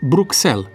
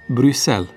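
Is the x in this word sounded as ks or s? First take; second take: ks; s. First: The x is sounded as ks. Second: The x is sounded as a plain s. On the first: The speaker calls it wrong. "pe care atât de mulți o rostesc" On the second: The speaker calls it right. "de fapt pronunția corectă este"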